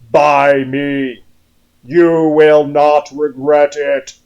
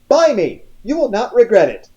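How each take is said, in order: First: It is said in a deep, husky male voice. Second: It is said in a plain, non-husky voice.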